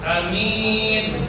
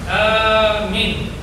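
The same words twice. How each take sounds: First: The first vowel is short, the second long. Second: The first vowel is long, the second short. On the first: It means safe. "kalau dibaca a-nya pendek" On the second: It means a security guard. "minnya yang dipendekkan"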